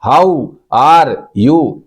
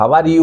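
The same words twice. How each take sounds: First: It is said word by word, stressing how. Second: It is said smoothly in one flow.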